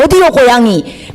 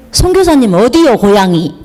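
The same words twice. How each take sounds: First: Put-on a light Jeolla accent, repeating the question; mild imitation of a Jeolla elder asking again; 전라도 말투로 다시 묻듯이; Jeolla dialect. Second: Put-on asking in a light Jeolla country accent; lightly imitating a Jeolla elder asking where she's from; 전라도 사투리로 가볍게 묻듯이; Jeolla dialect. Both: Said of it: "딱 그 전라도 말로 딱 하는 거예요".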